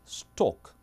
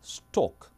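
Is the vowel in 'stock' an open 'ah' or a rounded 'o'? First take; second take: rounded o; rounded o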